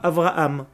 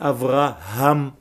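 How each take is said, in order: First: The middle h sound is dropped entirely. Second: The middle h sound is clearly breathed out. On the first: The speaker calls it wrong. "qui prononcent généralement le « he » comme un « aleph »; Ce n'est pas « Avraham »" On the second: The speaker calls it right. "c'est « Avraham »"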